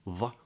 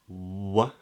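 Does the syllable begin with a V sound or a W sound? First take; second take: V; W. First: It begins with a V sound, teeth on lip. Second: It begins with a W sound, lips rounded. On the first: The speaker calls it wrong. "a bit more of a V, so it's not what, va" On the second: The speaker calls it right. "but wa"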